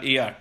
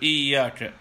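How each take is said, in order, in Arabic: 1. الياء قصيرة ومفردة. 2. الياء طويلة ومشددة. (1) "إذا لم يشدد الياء يكون قد أسقط حرفه" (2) "ما قال إياك"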